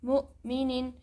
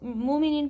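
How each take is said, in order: First: A sharp glottal catch follows the first syllable. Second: The first syllable flows smoothly without a catch. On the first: The speaker calls it right. "हमज़ा साकिन झटके से पढ़ा जाता है" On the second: The speaker calls it wrong. "अगर हम मुमिनिन पढ़ेंगे तो यह गलत है"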